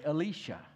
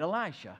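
First: The name is said the way Israelis say it. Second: The name is said the usual English way. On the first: "If you go to Israel, they'll say it this way" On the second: "It just doesn't sound right"

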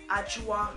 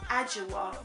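First: The name is said with its native pronunciation. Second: The name is said with an English pronunciation. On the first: The speaker calls it right. "it is Ajua" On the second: The speaker calls it wrong. "not Ajua"

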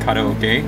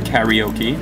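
First: It uses the local, Japanese-like pronunciation. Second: It uses the common anglicized mainland pronunciation. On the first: This is the correct pronunciation. The speaker calls it right. "knows how to pronounce it correctly" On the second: This is how people elsewhere say it. The speaker calls it wrong. "as they call it, on other parts of the world that's not Hawaii"

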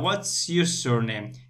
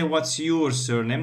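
First: The word 'surname' is stressed. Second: The word 'your' is stressed. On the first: The speaker calls it right. "No, what's your surname?" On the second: The speaker calls it wrong. "they don't say what's your surname"

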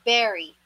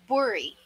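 First: The first vowel sounds like 'eh', as in 'berry'. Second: The first vowel sounds like 'oh', as in 'bori'. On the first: The speaker calls it right. "The correct pronunciation for this one is berry" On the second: The speaker calls it wrong. "ipopronounce as bori. Bori. Which is wrong"

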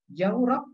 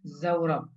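First: The word begins with a j sound. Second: The word begins with a z sound. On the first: "menggunakan jim" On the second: "menggunakan za"

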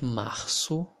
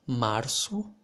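First: The R sounds like a breathy English H. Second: The R is not a breathy H sound. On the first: This is the speaker's own regional accent. "In my accent, I pronounce this R like the letter H in English" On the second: Other native speakers use this variant. "some native speakers also pronounce like"

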